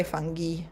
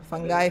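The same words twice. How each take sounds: First: Fungi with a hard g and final "ee"; fungi as fun-ghee. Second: Fungi with a hard g and final "eye"; fungi as fun-guy. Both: Shown as a demonstration. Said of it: "got various pronunciations".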